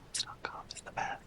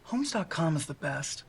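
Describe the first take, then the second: First: It is spoken in a whisper. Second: It is spoken in a normal voice.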